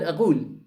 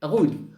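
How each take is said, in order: No difference in how they are said.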